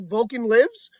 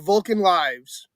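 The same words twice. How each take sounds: First: The word lives has a short i vowel. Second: The word lives has a long i vowel. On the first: The Vulcan is alive. "Did the Vulcan live?" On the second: These are the lives of Vulcans. "You're living Vulcan lives"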